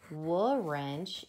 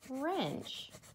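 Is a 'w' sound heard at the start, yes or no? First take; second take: yes; no. First: A 'w' sound is heard at the start of the word. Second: No 'w' sound is heard at the start of the word. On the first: The speaker calls it wrong. "it's not wrench" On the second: The speaker calls it right. "it's wrench"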